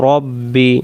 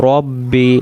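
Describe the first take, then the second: No difference in how they are said.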